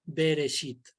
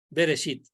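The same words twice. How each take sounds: First: "Bereshit" modelled with a falling close; teacher's Hebrew pronunciation. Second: "Bereshit" with the "sh" sound, said once more; repeated pronunciation. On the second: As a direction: say "Bereshit" again as be-re-SHIT, clipped and falling. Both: Shown as a demonstration. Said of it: "se pronuncia".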